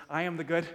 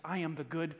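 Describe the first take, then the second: First: Firmer, landing on good; more confident. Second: Said in the usual way. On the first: Shown as a demonstration. Pastor urging congregation to answer, confident. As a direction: say it with conviction. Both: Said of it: "make a little bit more confidence".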